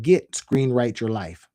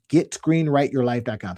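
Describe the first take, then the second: First: "Get" leaned on, slow and falling; stress on get. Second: Said in the usual way. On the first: Shown as a demonstration. Pitching a domain name, stressing "Get". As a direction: land hard on "Get" at the front. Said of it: "What if I tried". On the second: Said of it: "let's try that".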